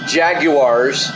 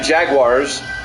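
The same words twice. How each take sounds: First: The word is said with three syllables. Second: The word is said with two syllables. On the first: "They make it three syllables" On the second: "two syllables"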